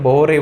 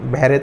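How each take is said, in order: First: The first vowel sounds like 'oh'. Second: The first vowel sounds like 'uh'. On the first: The speaker calls it right. "बोहरे बोलते हैं" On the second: The speaker calls it wrong. "बहरे तो नहीं"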